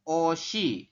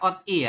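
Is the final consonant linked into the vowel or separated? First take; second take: linked; separated. First: The consonant carries over smoothly into the vowel. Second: The consonant stays separate, cut off before the vowel. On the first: The speaker calls it right. "Maka kita bacanya seperti ini" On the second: The speaker calls it wrong. "Kalau Anda bacanya ot i itu salah"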